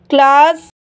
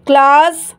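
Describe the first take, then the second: No difference in how they are said.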